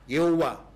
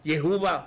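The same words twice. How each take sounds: First: The name is said the Chinese way. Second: The name is said the Javanese way. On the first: "Bahasa Cina juga pakai nama itu kok. Mungkin agak salah mengucapkan" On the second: "Logatnya saja dalam bahasa Jawa"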